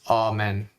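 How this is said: It is said with a Latin pronunciation. The speaker calls it right. "it's Amen"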